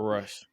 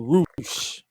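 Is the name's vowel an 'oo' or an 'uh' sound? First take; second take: uh; oo. First: The vowel is a short 'uh' sound. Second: The vowel is a long 'oo' sound. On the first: This is how the spelling would suggest reading it. The speaker calls it wrong. "but it's spelled Rush" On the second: This is how the name is actually pronounced. The speaker calls it right. "They pronounce it Roosh"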